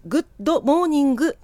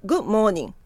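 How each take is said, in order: First: GOOD MORNING with every final sound voiced, "グッドモーニング"; wrong katakana pronunciation. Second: グッモーニング run together with no ド sound; dropped final D. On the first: Teacher shows learners what to avoid, グッドモーニング with ド fully pronounced. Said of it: "ほとんど発話をしてないんですね". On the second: Teacher models natural English for learners, グッモーニング with the D silent. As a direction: swallow the D, going straight from グッ into モーニング. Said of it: "ではなくて". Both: Shown as a demonstration.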